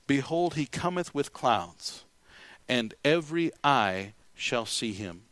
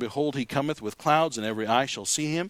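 First: It is read at a slower pace. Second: It is read at a normal, faster pace.

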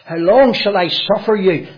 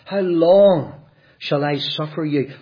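First: It is said in a harsh tone. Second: It is said in a gentle tone. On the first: The speaker is angry and impatient. The speaker calls it wrong. "That's not how it should be read" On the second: The speaker is sadly pleading for belief. The speaker calls it right. "the Lord was gentle"

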